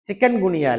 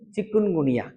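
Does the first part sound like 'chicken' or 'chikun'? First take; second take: chicken; chikun. First: The first part sounds like 'chicken'. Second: The first part sounds like 'chikun'. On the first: The speaker calls it wrong. "சிக்கன் இல்ல" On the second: The speaker calls it right.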